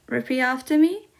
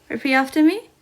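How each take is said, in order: No difference in how they are said.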